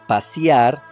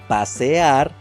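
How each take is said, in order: First: The vowel before the final 'ar' sounds like i. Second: The vowel before the final 'ar' sounds like e. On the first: The speaker calls it wrong. "cambio de la vocal e por i" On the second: The speaker calls it right. "la correcta pronunciación debe ser"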